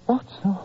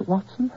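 First: Watson? falling as it sinks in; slow falling Watson?; dawning recognition. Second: Watson? rising like a puzzled question; dazed, rising Watson?; questioning rise. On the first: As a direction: let Watson? settle downward, remembering. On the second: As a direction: ask Watson? as if unsure who it is. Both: Acted. Dazed patient recognizing friend.

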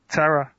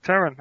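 First: Terra said without the final n, ending on a plain ah; mispronounced Terra. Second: Terran said with a clear final n, TEH-run; corrected Terran. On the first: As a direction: says Terra cut short, with no n at the end. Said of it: "You said Terra". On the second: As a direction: says Terran in full, landing the n at the end. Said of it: "Close, Terran". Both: Real, not acted.

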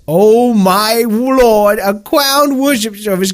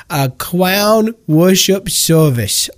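First: Awestruck gush. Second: Awed slow. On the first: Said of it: "sends chills down my spine". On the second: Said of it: "this just sends chills down my spine". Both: Acted.

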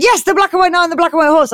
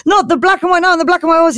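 First: High, fast emphatic confirmation; hammed-up proud yes, rattled off; excited knight. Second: High, fast mock disbelief; hammed-up amazement at full tilt; incredulous goblin. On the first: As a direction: fire it back with mock triumph. Knight matches goblin's excitement. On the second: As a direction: blurt it out as a starstruck question.

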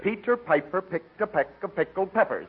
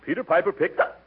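First: Slow, careful tongue twister; slower. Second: Hiccup cuts off the tongue twister; rushing it breathless, hiccup breaks in; all in one breath. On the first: Shown as a demonstration. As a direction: say each word slowly and evenly. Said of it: "no, no, slower, like this". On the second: Acted. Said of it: "without taking a breath".

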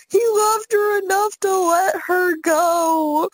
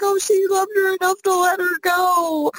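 First: Slow, high mock sob; imitated crying. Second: High-pitched mock weepy wail; imitated crying. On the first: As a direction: wail it slowly, mimicking a weeping friend. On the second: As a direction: imitate a tearful movie watcher up high. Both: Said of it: "she will cry that exact same sentence".

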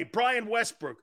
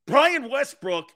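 First: Said in the usual way. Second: Brian Westbrook drawn out slowly, higher and louder; "Brian Westbrook" slowed right down and punched like a headline; slow emphatic name. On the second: Shown as a demonstration. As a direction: lean hard on Brian Westbrook, stretching every syllable.

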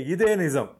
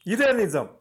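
First: ఇదే stressed, falling firmly; insisting. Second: ఇదే pushed higher and harder; stronger insisting. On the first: Ratnam insisting to the officers, firmly. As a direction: stress ఇదే, firm and sure. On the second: Ratnam repeating his claim even higher, desperate. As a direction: push ఇదే higher, near pleading. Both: A narrator's reading. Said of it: "నొక్కి మరీ చెప్పాడు".

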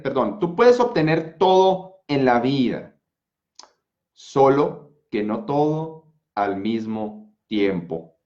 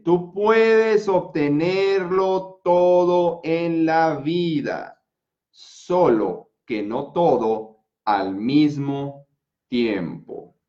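First: Said in the usual way. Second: Very slow, every syllable drawn out; slow motion. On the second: Shown as a demonstration. (en cámara lenta, muy despacio) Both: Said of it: "hasta en cámara lenta te lo voy a decir".

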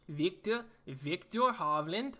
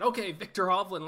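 First: Slow, fumbling fake Norwegian accent on the name; awkward Norwegian accent, rising at the end; bad Norwegian accent. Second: Said in the usual way. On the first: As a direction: attempt a Norwegian accent again. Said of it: "That's terrible. I gotta stop trying that". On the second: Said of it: "I gotta stop trying that".

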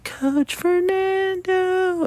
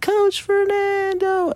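First: Put-on high, slow, drawn-out kid's call; distant child's sing-song shout; child calling from afar. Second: Put-on high, slow, drawn-out kid's call, a bit louder; sing-song child shout; louder child's call. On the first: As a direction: stretch it high like a little girl calling across the field. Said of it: "in the distance, I hear". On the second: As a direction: call it out high and long like a little girl getting closer. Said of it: "it gets a little bit louder".

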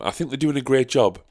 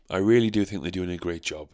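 First: Higher, mock-enthusiastic praise; sarcastic. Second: "really" leaned on, dry and deadpan; stress on really. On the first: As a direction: gush with fake approval. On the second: Acted. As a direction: press "really" with mock sincerity. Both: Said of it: "sarcasm aside".

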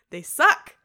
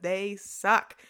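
First: Loud repeat. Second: Slow emphasis. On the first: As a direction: shout "They suck" much louder, with a rising punch. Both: Real, not acted.

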